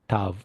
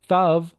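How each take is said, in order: First: The word begins with a t sound. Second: The word begins with a th sound. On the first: The letter has a dot in the middle. "So it's like a T sound" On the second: The letter has no dot in the middle. "when you don't have a dot in the middle of this letter here, it's Thav"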